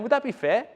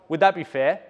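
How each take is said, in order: First: It sounds like a genuinely curious question. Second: It sounds like a pushy sales question. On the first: The speaker only wants an honest opinion of the offer. The speaker calls it right. "I'm asking a genuine question, human to human" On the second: The speaker is pressing for the sale. The speaker calls it wrong. "I'm not going"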